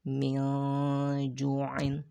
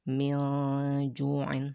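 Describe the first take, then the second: First: The n is blurred and hidden before the j. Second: The n is blurred and hidden before the j.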